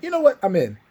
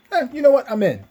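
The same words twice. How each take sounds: First: Much higher, louder offhand agreement; high casual Maze voice. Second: Higher, louder offhand agreement; high casual Maze voice. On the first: Maze retold agreeing to join, higher and louder. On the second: Maze shrugs and agrees to join, higher and louder. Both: Retold or imitated. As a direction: toss it off like it's nothing.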